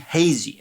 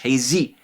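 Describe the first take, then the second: First: The stress is on the first syllable. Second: The stress is on the second syllable. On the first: This is the word's normal stress. The speaker calls it right. "The word is clearly" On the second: This is the stress the song gives it. The speaker calls it wrong.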